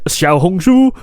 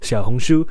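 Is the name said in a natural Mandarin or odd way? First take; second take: odd; natural Mandarin. First: The name is said in an odd, unnatural way. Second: The name is said with natural Mandarin pronunciation. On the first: The speaker calls it wrong. "I don't know why I said it like that" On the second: The speaker calls it right. "I could pronounce it completely normally"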